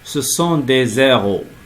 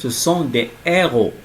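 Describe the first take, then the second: First: A z sound links into the last word. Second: No z sound links into the last word. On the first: It sounds like zeros, the numbers. The speaker calls it wrong. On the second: It means heroes. The speaker calls it right.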